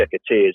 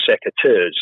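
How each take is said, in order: First: Secateurs with an "-eerz" ending; alternative pronunciation. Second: Secateurs with an "-urz" ending; first pronunciation variant. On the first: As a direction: say secateurs as "sek-uh-TEERZ". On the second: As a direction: say secateurs as "sek-uh-TURZ". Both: Shown as a demonstration. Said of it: "however you wanna say it".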